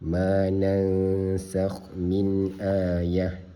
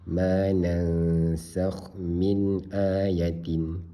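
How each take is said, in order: First: The final word ends softly with an h sound. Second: The final word ends with a pronounced tin sound. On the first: The speaker calls it right. "wakaf dia akan jadi hal simpul" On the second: The speaker calls it wrong. "Kalau dia baca macam tu salah lah"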